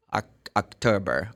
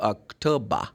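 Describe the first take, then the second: First: "October" ending in a curled ber; American R. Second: "October" ending in an open bah, no r; British open ending. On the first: Teacher models American month names, r pronounced. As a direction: sound the final r of "October", a bit lower. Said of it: "this is American". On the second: Teacher models British month names, open ending. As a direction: drop the final r of "October". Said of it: "This is British". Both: Shown as a demonstration.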